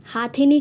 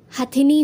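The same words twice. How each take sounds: First: हाथिनी with long first aa, "haa-thini"; wrong form. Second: हथिनी with short first vowel, "ha-thini"; correct form. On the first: Teacher rejecting the wrong word, हाथिनी with long haa. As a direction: lengthen the 'haa' in हाथिनी. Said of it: "कुछ नहीं होता". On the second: Teacher giving the correct word, हथिनी with short ha. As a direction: keep the 'ha' in हथिनी short. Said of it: "होता है". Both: Shown as a demonstration.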